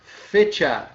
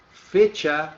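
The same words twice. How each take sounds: First: "Fecha." loud and falling, Spanish ch; Spanish word shown. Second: Said in the usual way. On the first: Shown as a demonstration. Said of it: "desse camarada aqui, ó". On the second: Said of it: "é data".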